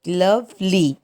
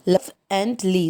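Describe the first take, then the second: First: Said in the usual way. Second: "love and ly" in two separate beats; split into syllables. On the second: Shown as a demonstration. Teacher counting two syllables, "love and ly" split apart. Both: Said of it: "so two syllable".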